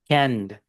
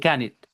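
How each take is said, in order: First: It ends directly in a d sound. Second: The ending is said as an extra syllable. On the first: The speaker calls it right. "Con d, canned, no can it" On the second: The speaker calls it wrong. "aquí dice can it"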